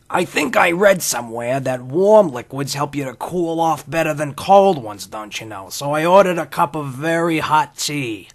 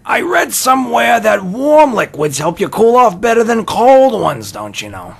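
First: Put-on slow, higher old-timey drawl; Henry Miller impression. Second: Much higher and louder Miller voice; Henry Miller impression. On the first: Host imitating Henry Miller ordering tea in a cafe, slow and higher. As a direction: do a slow, higher old writer musing aloud. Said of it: "That's my Henry Miller impression". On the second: Son quoting Henry Miller to his dad, much higher and louder. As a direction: channel the old writer, hammed up. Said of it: "remembering Miller".

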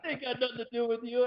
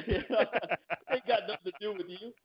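First: High mock threat; movie tough-guy line. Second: High, slow mock threat; movie tough-guy line. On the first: The line he wished he'd used on the husband, mock menace. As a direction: deliver it like a cool hitman. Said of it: "use that line". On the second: Samuel Jackson telling off the diner manager, slow. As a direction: stretch it like a cool hitman. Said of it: "he's like".

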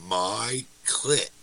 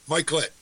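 First: "My clit" low, each word set apart; low, deliberate "My ... clit"; split into two words. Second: "Mike Litt" run together quickly; said faster. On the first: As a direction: spell out the joke, pausing between "My" and "clit". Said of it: "You don't see it, that it's a joke?". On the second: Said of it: "Say it faster". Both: Acted.

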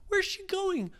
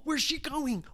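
First: "Where's" pushed much higher and a little louder; "Where's" pitched way up in rising panic; more frantic. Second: "where's" asked high and alarmed; worried. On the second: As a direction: start high on "where's", then fall. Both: Acted. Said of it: "Ryan said".

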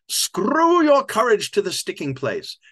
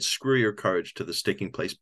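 First: Loud, high, slow mock-Shakespearean boom; hammy old actor. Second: Said in the usual way. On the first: Old actor blurting a Shakespeare line, grand hammy boom. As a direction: declaim it grandly like a desperate ham. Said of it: "He goes". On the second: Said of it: "the audience burst out laughing when he said".

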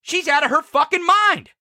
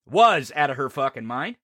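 First: Said in the usual way. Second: "Was" pushed forward as the fix; quick self-correction, "Was" stressed and lower; correcting to past tense. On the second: Real, not acted. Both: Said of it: "Sorry, I got the wrong tense there".

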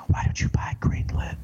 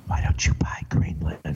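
First: Breathy secret whisper in the ear. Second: Whispered again, lower. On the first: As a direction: whisper it like a scheming adviser. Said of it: "they just whisper in his ear". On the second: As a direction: slip it into his ear in a hush. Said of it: "another general would leave". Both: Retold or imitated.

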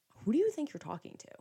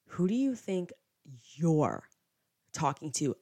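First: Higher-pitched, contained indignation; retold pissed-off challenge. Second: Broken up with pauses, leaning on YOU'RE; retold mocking comeback. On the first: Woman whipping round at the rude friend, indignant challenge. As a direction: challenge him without raising the volume. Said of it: "now I'm pissed off". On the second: Hammered friend coming back at her, scornful echo. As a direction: throw the challenge back, word by word. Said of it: "he comes back and is like".

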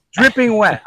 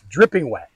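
First: "dripping wet" pushed higher and louder; escalating "dripping wet"; emphatic repeat. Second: Said in the usual way. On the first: Real, not acted. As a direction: hammer "dripping wet" home.

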